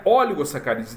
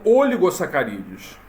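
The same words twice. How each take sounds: First: "oligosacarídeos" with an open, accented first O; correct pronunciation. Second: "oligosacarídeos" with a closed first O; mispronounced word. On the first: Shown as a demonstration. Teacher giving the right form of the word, open-O pronunciation. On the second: Retold or imitated. Teacher quoting the text-to-speech error, closed-O mispronunciation. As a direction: imitate the machine's misreading, "oligosacarídeos" with an unaccented, closed O. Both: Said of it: "o certo da palavra".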